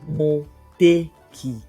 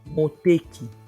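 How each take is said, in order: First: It is said slowly, broken into parts. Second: It is said quickly in one go. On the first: "I'll just break it down" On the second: "I'll say it fast"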